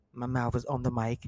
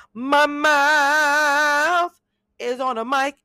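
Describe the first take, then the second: First: Said in the usual way. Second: High, loud, squealing repeat of the line. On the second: Shown as a demonstration.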